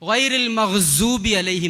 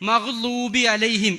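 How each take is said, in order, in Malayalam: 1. ഊന്നിയ വ്യഞ്ജനം z ശബ്ദമായാണ് ഉച്ചരിക്കുന്നത്. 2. ഊന്നിയ വ്യഞ്ജനം മൃദുവായ l പോലുള്ള ശബ്ദത്തോടെയാണ് ഉച്ചരിക്കുന്നത്. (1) "ഗൈറിൽ മഗ്സൂബി അലൈഹിം എന്നാ പറയാം" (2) "ലോദ് എന്ന് പറയുന്ന അക്ഷരം വളരെ ഭംഗിയായിട്ട് ഉച്ചരിക്കാൻ അറിയുന്നവരാ"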